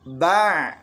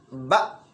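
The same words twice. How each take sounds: First: The sound is drawn out. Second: The sound stops abruptly. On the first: The speaker calls it wrong. "Bukan a, i, u, ba" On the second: The speaker calls it right. "langsung terhenti"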